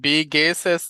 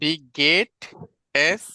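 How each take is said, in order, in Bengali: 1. মাঝের শব্দটি s ধ্বনি দিয়ে শেষ হয়। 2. মাঝের শব্দটি t ধ্বনি দিয়ে শেষ হয়।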